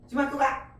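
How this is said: It is said with a commanding tune. The speaker orders someone to go to school. "명령이죠"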